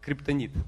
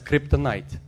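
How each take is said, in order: First: The middle vowel is said like Russian 'i'. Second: The middle vowel is said like English 'night'. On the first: "криптонит по-русски" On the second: "я говорю по-английски"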